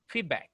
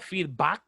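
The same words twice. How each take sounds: First: The vowel is said as a small A. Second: The vowel is said as a big A. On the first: The speaker calls it right. "It's a small A" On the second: The speaker calls it wrong. "It's not feedback. It's not a big A"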